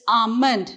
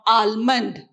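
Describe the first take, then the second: First: The L sound is silent. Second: The L sound is pronounced. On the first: The speaker calls it right. "you remove the letter L here. It's almond" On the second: The speaker calls it wrong. "not almond"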